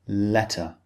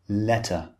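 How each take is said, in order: First: The middle consonant is a clear, crisp T. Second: The same.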